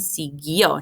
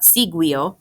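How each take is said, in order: First: No u sound is heard after the g. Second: A u sound is heard after the g. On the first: The speaker calls it right. "we do not hear the U when we pronounce the word" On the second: The speaker calls it wrong.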